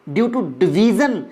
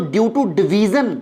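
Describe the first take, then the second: First: Due to division said even slower; slow emphasis. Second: Very slow, each word spelled out; slow emphasis. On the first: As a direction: stretch it out so it sinks in. Teacher repeats key phrase slowly. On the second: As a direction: drag out due to division for the class. Teacher stressing key phrase slowly. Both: Shown as a demonstration.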